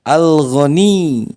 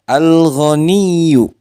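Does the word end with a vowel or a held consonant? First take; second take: held consonant; vowel. First: The word ends on a pressed, held consonant. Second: The word ends with a short final vowel.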